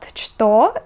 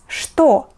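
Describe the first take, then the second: First: The word begins with a ch sound. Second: The word begins with an sh sound. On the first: The speaker calls it wrong. "this word is not что" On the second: The speaker calls it right. "we read it as что"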